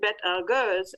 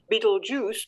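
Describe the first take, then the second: First: The name has an Arabic-derived pronunciation. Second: The name has its usual English pronunciation. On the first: The speaker calls it right. "but Bet Algers" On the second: The speaker calls it wrong. "you don't pronounce that star up there as Betelgeuse"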